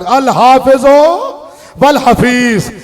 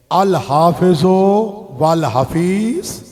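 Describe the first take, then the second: First: Very slow, fuller-voiced farewell; drawn-out farewell. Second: Very slow, soft, stretched farewell words; drawn-out farewell. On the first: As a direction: stretch "हाफिजो" long and strong. (धीमी, ज़ोरदार, खिंची हुई अलविदा) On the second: Acted. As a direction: let each word of the farewell hang. (धीमी, नरम, खिंची हुई अलविदा) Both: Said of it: "जिस तरह भी जाकिर पढ़ते हैं".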